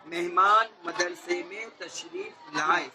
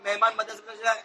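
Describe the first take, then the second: First: Slow, carefully separated words; measured model sentence, drawn out for clarity; clear enunciation. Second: Fast, run-together recitation; quick, careless demo of how not to say it; rushed wrong way. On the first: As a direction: say each word cleanly, taking your time. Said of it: "صفائی کے ساتھ بولتے ہیں". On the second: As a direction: rattle the words off without separating them. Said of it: "ایسا نہیں بولے گا". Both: Shown as a demonstration.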